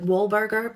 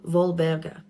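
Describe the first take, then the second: First: The name begins with a W sound. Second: The name begins with a V sound. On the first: "her name starts with a W" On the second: "you pronounce your W's in German as V's"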